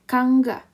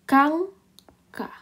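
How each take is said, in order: First: The middle g sound is plain and soft. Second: The middle consonant is tense and hard. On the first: The speaker calls it wrong. "Seharusnya ya" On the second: The speaker calls it right. "kita akan memperjelasnya menjadi kangka"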